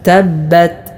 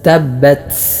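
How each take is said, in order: First: The final t ends cleanly without extra air. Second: The final t ends with a strong hiss of air. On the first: The speaker calls it right. "തബ്ബത് തബ്ബത് ഇത്രയേ വേണ്ടതുള്ളൂ" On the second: The speaker calls it wrong. "ഇങ്ങനെ സീന് പോലെ ശക്തമായ കാറ്റ് കൊടുത്തുകൊണ്ട് ... അത് പിഴവാണ്"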